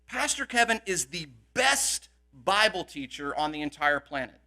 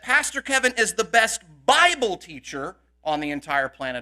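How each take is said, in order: First: The word best carries the main stress. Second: The word Bible carries the main stress. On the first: No one is better than him. "what that means is no one is better" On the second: He is best only at teaching the Bible. "may not be able to teach anything else"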